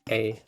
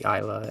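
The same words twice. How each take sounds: First: The name begins with an 'ay' vowel sound. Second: The name begins with an 'eye' vowel sound. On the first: "E A E I would be Ayla" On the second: "A I would be I"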